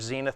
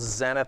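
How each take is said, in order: First: It is said with an American pronunciation. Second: It is said with a British pronunciation. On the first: "or the United States" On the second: "depending on if you're from Britain"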